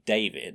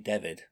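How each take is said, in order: First: The first vowel has the standard English sound. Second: The first vowel has an East Lancashire sound. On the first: "Instead of saying David" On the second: "East Lancashire can't pronounce their A's. they'll say David"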